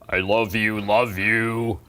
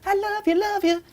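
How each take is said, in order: First: The voice is at a deeper pitch. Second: The voice is at a higher pitch. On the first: The voice was altered by someone else. The speaker calls it wrong. "he altered the voice so that it's deeper" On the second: This is how the original recording sounds. The speaker calls it right. "instead of"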